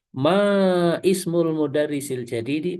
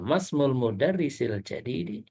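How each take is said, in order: First: The 'i' of ismul is pronounced separately. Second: The 'i' is dropped, linking into 'masmul'. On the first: The speaker calls it wrong. "bukan gini" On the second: The speaker calls it right. "Tapi langsung mas gitu ya"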